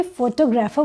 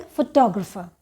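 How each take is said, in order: First: फोटोग्राफर as FO-to-graa-fer, full first vowels; non-standard pronunciation. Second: फोटोग्राफर stressed on its second syllable, fuh-TOG-ruh-fer. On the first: Teacher shows a learner's understandable slip, फोटोग्राफर said as FO-to-graa-fer. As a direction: say फोटोग्राफर like photo plus grapher. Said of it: "अगर कोई फोटोग्राफर बोलेगा तो भी समझ आएगा". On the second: Teacher shows learners the correct word, फोटोग्राफर stressed as fuh-TOG-ruh-fer. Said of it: "the stress is on the second syllable". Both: Shown as a demonstration.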